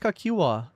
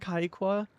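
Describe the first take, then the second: First: The name is pronounced as Kakiwa. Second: The name is pronounced as Kaikwa. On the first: The speaker calls it right. "It's Kakiwa" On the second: The speaker calls it wrong. "It's not fucking Kaikwa"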